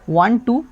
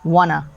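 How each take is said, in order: First: Both words are said fully and separately. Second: The words blend into one short word.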